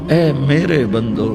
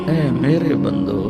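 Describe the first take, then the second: Both takes have the same delivery.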